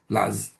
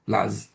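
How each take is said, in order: First: The word is said with one syllable. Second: The same.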